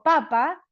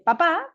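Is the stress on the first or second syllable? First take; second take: first; second. First: The stress is on the first syllable. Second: The stress is on the second syllable. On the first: It names a vegetable. "Papa es una verdura" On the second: It names a father. "papá es mi papá"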